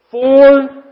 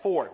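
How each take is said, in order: First: FOUR boomed out very loud and high; heavy emphasis on FOUR. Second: Said in the usual way. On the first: Shown as a demonstration. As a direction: blast the word FOUR, held long. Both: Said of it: "I wanted emphasis on that word".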